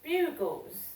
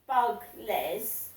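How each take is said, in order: First: The word is said smoothly as one unit. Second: The word is broken into two separate parts. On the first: The speaker calls it right. "it's Bugles" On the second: The speaker calls it wrong. "it's not pronounced Bug-les"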